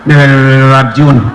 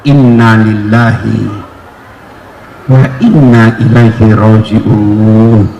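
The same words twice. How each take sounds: First: The phrase is said quickly and hurriedly. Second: The phrase is said slowly and calmly.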